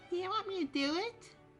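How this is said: It is said in a childlike voice.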